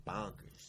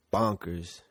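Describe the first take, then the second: First: Soft, breathy repeat of "bonkers"; quiet repeat. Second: Slow, stretched "bonkers" with falling tune; drawn out. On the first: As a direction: say "bonkers" again under your breath. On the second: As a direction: drag out "bonkers" slowly. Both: Real, not acted. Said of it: "I said it, like".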